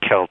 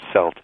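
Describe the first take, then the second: First: Celt is said the way Germans say it. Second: Celt is said the way the French say it. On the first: "The Germans say Celt" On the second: "the French say Celt"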